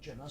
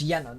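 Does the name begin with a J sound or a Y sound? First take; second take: J sound; Y sound. First: The name begins with a J sound. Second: The name begins with a Y sound. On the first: The speaker calls it wrong. "not Junna, sorry" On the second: The speaker calls it right. "it's Yenna"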